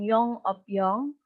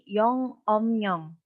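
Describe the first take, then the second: First: The middle syllable ends in p, last in yong. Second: The middle syllable ends in m, last in nyong. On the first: The speaker calls it wrong. "Jadi bukan yong, op, yong lagi" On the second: The speaker calls it right. "tetapi menjadi yong, om, nyong"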